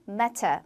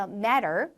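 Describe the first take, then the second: First: Matter with a crisp T and no R, like mata; British matter; 영국식 matter; British pronunciation. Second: Matter with a flapped T and a final R; American matter, like maRer; 미국식 matter; American pronunciation. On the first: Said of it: "영국 영어에서는 matter". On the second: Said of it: "미국 영어에서 matter". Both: Shown as a demonstration.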